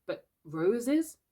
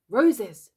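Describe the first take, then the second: First: Said in the usual way. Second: Louder, stern command; sharp stern Roses! from Peter; sternly. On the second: Acted. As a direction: bark the word Roses! as an order. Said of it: "cried Peter sternly".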